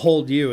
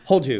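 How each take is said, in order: First: The two words are said separately. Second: The two words are run together as one. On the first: The speaker calls it wrong. "not hold you" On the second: The speaker calls it right. "it's one word"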